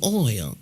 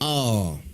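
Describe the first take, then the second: First: The vowel glides like 'oy'. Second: The vowel is a plain 'aw'. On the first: This is the newer, non-local way of saying it. "We don't say oil" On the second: This is the traditional local Texan way. "It's all, all"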